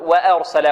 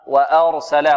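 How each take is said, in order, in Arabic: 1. الحركة الأولى ممالة نحو الكسرة. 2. الحركة الأولى فتحة خالصة. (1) "ولا نقول وأرسل و، لا" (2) "بدون تقليل، فتح و"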